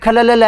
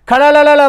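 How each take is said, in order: First: The first word has a plain L sound. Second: The first word has a flapped retroflex R sound. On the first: The speaker is an outsider. The speaker calls it wrong. "वो खला ला ला कर तो ... तू बीकानेरी है ही कोनी" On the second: The speaker is a native Bikaneri. The speaker calls it right. "Rajasthani बोलने वाला आदमी तो क्या है खड़ा ला ला ला बोल सके"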